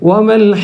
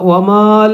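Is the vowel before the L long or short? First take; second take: short; long. First: The vowel before the L is kept short. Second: The vowel before the L is drawn out long. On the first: The speaker calls it right. "അപ്പം നീട്ടാനുള്ള അക്ഷരം ഒഴിവാക്കും" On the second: The speaker calls it wrong. "വമാൽ എന്നല്ല"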